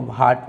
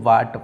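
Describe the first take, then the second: First: The word starts with a breathy h-like sound. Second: The word starts with a plain w sound. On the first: The speaker calls it wrong. "इसको भाट पढ़ते हैं, तो ये गलत" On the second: The speaker calls it right. "एच डब्ल्यू के साथ में आए तो इसको वाट पढ़ा जाएगा"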